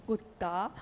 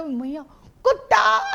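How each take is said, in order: First: कुत्ता फुसफुसाकर, धीमे और नीचे स्वर में; कान में चुपके से कुत्ता कहना; secret ear whisper. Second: भैया कुत्ता ऊँची आवाज़ में ज़ोर से चिल्लाकर; बच्चे की तरह ऊँचा और ज़ोर से पुकारो; loud child shout. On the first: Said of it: "secret कान में". (कान में धीरे से बोला गया कुत्ता) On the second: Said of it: "जोर से बोलेगा". (भैया कुत्ता, ज़ोरदार ऊँची चीख) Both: Retold or imitated.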